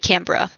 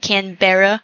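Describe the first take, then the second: First: It is said the Australian way. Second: It is said the American way.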